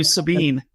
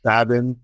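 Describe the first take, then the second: First: Sabine with a long ee, stress on bine; wrong name. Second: Sabin said SAY-bin, stress first; right name. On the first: Producer showing the wrong way, Sabine said suh-BEEN. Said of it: "if they call you Sabine". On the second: [name] correcting his name, Sabin said SAY-bin. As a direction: Sabin with short second vowel. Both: Shown as a demonstration.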